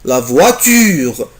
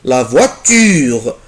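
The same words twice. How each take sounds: Both takes have the same delivery.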